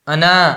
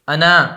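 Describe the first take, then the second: First: The final vowel is stretched out long. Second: The final vowel is stretched out long.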